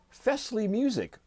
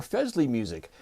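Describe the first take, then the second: First: Fesley with a hissed S, FESS-lee; Fesley rhyming with "dressly"; soft S pronunciation. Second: Fesley with a buzzed Z, FEZ-lee; Fesley with Z in place of S; Z pronunciation. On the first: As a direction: say Fesley higher, with an unvoiced S. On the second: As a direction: say Fesley as "Fezley". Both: Shown as a demonstration. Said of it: "asked them how they pronounce their name".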